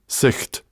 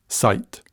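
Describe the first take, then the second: First: Sicht with a throaty ch like loch; Scots sicht. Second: Said in the usual way. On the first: Shown as a demonstration. Speaker contrasting Scots sicht with English sight. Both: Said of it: "Sicht, sight".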